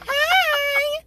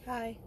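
First: The greeting sounds happy and enthusiastic. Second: The greeting sounds flat and unhappy.

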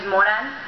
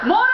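First: The name is said at a calm, normal volume. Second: The name is screamed loudly, as if calling far away.

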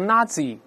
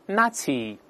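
First: The middle consonant is a z sound. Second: The middle consonant is a ts sound. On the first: The speaker calls it wrong. "不要读Nazi" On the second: The speaker calls it right. "中间这个字母Z 发c 这个声音"

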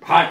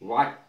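First: The word begins with a b-like sound. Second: The word begins with a w sound. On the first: The speaker calls it wrong. "भाट नहीं" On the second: The speaker calls it right.

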